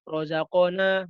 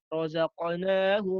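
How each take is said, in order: First: The qaf is said with a full vowel. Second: The qaf has only a light, short echo. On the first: The speaker calls it wrong. "bukan razaqna, bukan" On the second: The speaker calls it right. "Kayak ngucapin huruf qa-nya tapi nggak nggak diucapin banget"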